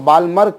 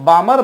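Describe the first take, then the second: First: The L sound is clearly pronounced. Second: The L sound is left out. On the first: "कुछ लोग उसको बालमर कहते हैं" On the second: "एल जो है वो साइलेंट रखा जाता है"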